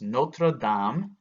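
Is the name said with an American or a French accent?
French. The name is said with a French accent. The speaker calls it right. "It's Notre Dame en français"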